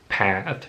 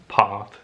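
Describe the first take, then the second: First: It is said in an American accent. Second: It is said in a British accent. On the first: "in American accent" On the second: "in British accent"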